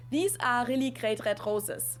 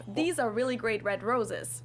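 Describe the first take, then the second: First: All R's in "These are really great red roses" said the German way, in the throat. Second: Said in the usual way. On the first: Shown as a demonstration. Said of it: "pronounce all R's the German way". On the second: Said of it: "instead of".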